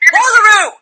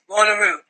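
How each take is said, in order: First: It is said forcefully, as a loud demand. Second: It is said weakly and uncommittedly.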